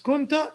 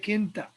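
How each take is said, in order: First: The first vowel is u. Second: The first vowel is i. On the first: The speaker calls it right. "It's kunta because that's how they said it" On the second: The speaker calls it wrong. "I prefer to say kinta"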